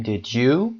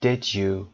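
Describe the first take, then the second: First: Unsure tag "Did you", pitch climbing to the end; rising intonation. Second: "Did you" with the voice going down on you; confirming tag "Did you", pitch dropped at the end; falling intonation. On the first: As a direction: lift "Did you" sharply at the end, genuinely asking. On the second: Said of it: "صدا به سمت پایین میاد". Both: Shown as a demonstration.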